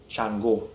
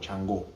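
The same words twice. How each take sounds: First: The name is said slowly. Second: The name is said quickly.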